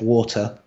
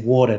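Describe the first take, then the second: First: It is said with a British accent. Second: It is said with an American accent. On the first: This is how the speaker used to talk. "instead of water" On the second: This is how the speaker talks now. "I say water now"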